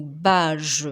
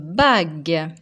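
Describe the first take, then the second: First: It ends with a soft J sound. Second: It ends with a hard G sound. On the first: The speaker calls it wrong. "Si on oublie de mettre la lettre U, ça va faire le mot" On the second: The speaker calls it right. "comme on veut que la lettre G fasse le son G"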